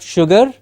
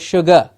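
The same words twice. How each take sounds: First: The final vowel is a full vowel. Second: The final vowel is a reduced schwa. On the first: The speaker calls it wrong. "and not sugar" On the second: The speaker calls it right. "That's the schwa"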